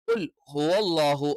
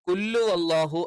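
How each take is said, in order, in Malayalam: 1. qul ന് ശേഷം വ്യക്തമായ h ശബ്ദം വരുന്നു. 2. h ഒഴിവാകുന്നു, qul നേരെ അതിലേക്ക് ചേർന്ന് പോകുന്നു. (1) "കറക്റ്റ് ഉച്ചരിക്കണം" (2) "എന്നായി പോകാൻ പാടില്ല"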